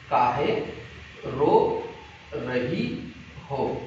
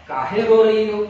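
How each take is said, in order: First: "काहे", "रो", "रही हो" slow and separated by pauses; word by word. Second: Said in the usual way. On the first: Shown as a demonstration. Teacher breaking down the memory phrase for pupils, word by word. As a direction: say "काहे रो रही हो" piece by piece, lower, trailing softer.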